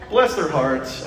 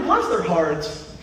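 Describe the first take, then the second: First: Said in the usual way. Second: Mock pity. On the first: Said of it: "I mean, bless their hearts".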